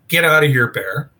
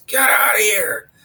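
First: Mild mock yell, raised then dropping away; retold yell. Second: Imitated booming bellow, pushed up high; Jeff's booming yell. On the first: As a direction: re-enact yelling off a bear, held back. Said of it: "So I yelled". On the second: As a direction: re-enact a big-voiced man roaring at a bear. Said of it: "got a real deep booming voice".

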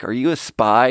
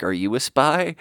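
First: Said in the usual way. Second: Lightly imitated Russian woman's accent. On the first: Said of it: "they get into this cool banter". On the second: Russian woman teasing him back in banter, light Russian accent. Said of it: "woman with a cool Russian accent".

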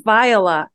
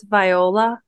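First: Viola with the O barely sounded; Viola without hitting the O. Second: Viola with a clear long O, questioning; Viola with the O hit. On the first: Co-host gives her own pronunciation of the name, Viola with a light O. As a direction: say Viola, glide lightly over the O. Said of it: "I don't hit the O". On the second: Co-host checks the other pronunciation of the name, Viola with a full O. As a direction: say Viola, sound the O fully, lift the end. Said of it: "It's the O". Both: Shown as a demonstration.

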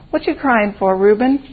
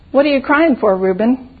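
First: Lightly voiced caterpillar, close to usual pitch; a mild hint of a small woolly creature; fuzzy little caterpillar. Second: Lightly voiced talking flower, pitched higher; a hint of a small, thin flower voice; little posy voice. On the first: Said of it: "in his fuzzy little voice". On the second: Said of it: "talked in a kind of pinky white voice". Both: A narrator's reading.

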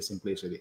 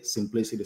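First: "simplicity" dropped much softer and lower, trailing off; fading echo. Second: "simplicity" said steadily, a little softer, as a repeated mantra; repeated slogan. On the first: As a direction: let "simplicity" fade out like an echo. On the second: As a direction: echo "simplicity" like a catchphrase. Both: Retold or imitated. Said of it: "you always keeps telling us simplicity".

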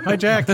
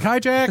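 First: Laughing repeat. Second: High, bright greeting; mock-cheery hi to a friend; cheery hello. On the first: Retold or imitated. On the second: A bartender greeting his friend Jack at the airport, mock-cheery. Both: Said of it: "It's an airplane joke".

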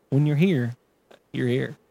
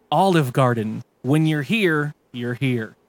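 First: Gurgly, soggy slogan voice; wet voice. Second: Gurgly, soggy announcer voice; wet voice. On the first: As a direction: say it like your mouth is full of water. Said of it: "in a wet voice". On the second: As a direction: read the slogan through wet gurgles. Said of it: "Announcer with a wet voice". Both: Acted.

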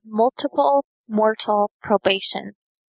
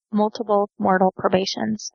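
First: Measured, slower pace on each word; unhurried, separated words; slow and careful. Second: Lightly quickened repeat, words linked; quicker tongue-twister try. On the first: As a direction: spell out the phrase slowly, word by word. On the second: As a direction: run the three words together a little quicker. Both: Shown as a demonstration. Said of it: "Say that three times fast".

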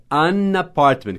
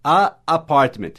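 First: "an apartment" linked as "ana-partment"; smooth an apartment. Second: "A apartment" with a stretched, clashing "A"; awkward a apartment. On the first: Teacher demoing the easy right form. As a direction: glide "an" straight into "apartment". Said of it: "Você diz an apartment". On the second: Teacher demoing the clumsy wrong form. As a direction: let "A" drag into "apartment". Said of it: "você não quer gaguejar dizendo a". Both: Shown as a demonstration.

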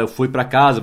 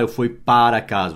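First: Said in the usual way. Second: "para" dito inteiro e destacado; ênfase em PARA. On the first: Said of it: "você não fala eu fui para casa". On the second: Shown as a demonstration. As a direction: marque "para" como a palavra errada. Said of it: "você não fala". (destaque didático em "para")

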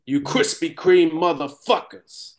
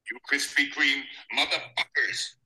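First: Slow, less accent; toned-down accent. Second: Soft, clipped Boston accent on "Krispy Kreme". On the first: Redoing the line with less accent for friends. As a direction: drop most of the Boston accent, slower. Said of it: "not so much accent on there". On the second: Trying the line in a Boston accent, softly. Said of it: "he does it in a Boston accent". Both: Shown as a demonstration.

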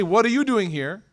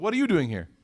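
First: Mildly suspicious, pointed question; serious questioning. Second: Light, offhand greeting to a friend; casual friendly greeting. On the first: Rivals catching each other at the Kaaba, serious questioning. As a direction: ask it as a serious challenge. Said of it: "this is a very serious question". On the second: Bumping into a friend at Qahwa House, casual greeting. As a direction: toss it off casually, as if pleasantly surprised. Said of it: "when you see your friend". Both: Acted.

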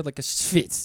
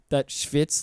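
First: Schwitz with a light Jewish accent. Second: Said in the usual way. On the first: Shown as a demonstration. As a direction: say schwitz in a Yiddish-flavoured accent. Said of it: "a good Jewish accent there". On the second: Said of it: "I didn't give that schwitz, like, a good Jewish accent".

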